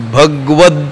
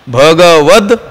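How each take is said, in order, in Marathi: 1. 'g' हा आवाज अर्धा करून 'v' ला जोडतात. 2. 'g' हा आवाज त्याच्या स्वरासह पूर्ण म्हणतात. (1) "ग अर्धा म्हणतो" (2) "ते पूर्ण म्हणायचे"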